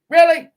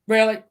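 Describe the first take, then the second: First: "Really" jumps high and loud in disbelief; disbelieving outburst; loud incredulous really. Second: Said in the usual way. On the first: Real, not acted. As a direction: fire back a sharp, high "Really?". Incredulous at comment.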